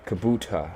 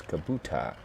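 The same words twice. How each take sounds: First: "Kabuta" said again as the corrected version; corrected name. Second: "Kabuta" as first read, the wrong version; misread name. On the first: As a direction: fix "Kabuta" to the proper reading. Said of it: "Or Kabuta". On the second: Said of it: "I read it wrong in my head". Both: Shown as a demonstration.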